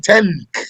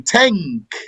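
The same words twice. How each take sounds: First: The n is made at the front of the tongue. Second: The n is made at the back of the tongue. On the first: The speaker calls it wrong. "Usually not from the front of the tongue. You don't say tank" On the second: The speaker calls it right. "bring it from the back of your tongue. You say tank"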